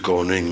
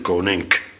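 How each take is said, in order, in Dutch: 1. Het woord eindigt op een zachte ng-klank. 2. Het woord eindigt op een harde k-klank.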